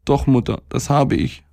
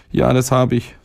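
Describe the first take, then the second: First: Put-on high little-boy voice, mildly pitiful; understated whimper in a raised child's pitch; tearful boy. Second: Put-on high little-boy voice, steady; boy admitting. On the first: Sick boy confessing to his mother, mildly tearful. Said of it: "sagte er und weinte gottsjämmerlich". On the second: Boy telling his stomach he has learnt, compliant. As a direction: answer in a raised child's pitch, no tears. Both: A narrator's reading.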